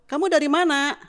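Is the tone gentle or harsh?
harsh. It is said in a loud, harsh tone. The question sounds like an accusation. The speaker calls it wrong. "gitu kan beda. Intonasinya sama keras keras pelannya"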